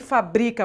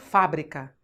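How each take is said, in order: First: The stress falls on the second syllable. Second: The stress falls on the first syllable. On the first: It is a verb meaning to manufacture. "É verbo" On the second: It is a noun meaning a factory. "aí é uma proparoxítona, tem que ter acento"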